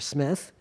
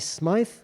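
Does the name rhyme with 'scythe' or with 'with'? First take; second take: with; scythe. First: The vowel is a short 'i' sound. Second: The vowel is a long 'eye' sound. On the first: This is the original pronunciation. "or Smith" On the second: This is the pronunciation he adopted later. "he changed the pronunciation from Smith to Smythe"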